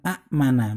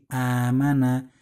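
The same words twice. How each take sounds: First: A glottal stop follows the first vowel. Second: The first vowel is long with no glottal stop. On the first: This is the original underlying form. "asalnya kan amana" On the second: This is the form actually pronounced. "menjadi amana"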